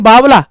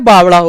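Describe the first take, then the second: First: It is said with a plain Hindi l sound. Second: It is said with the Haryanvi consonant in the middle. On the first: "Hindi में तो हम बोलते हैं बावला" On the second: "Rajasthani और हरियाणवी में एक शब्द सुना होगा"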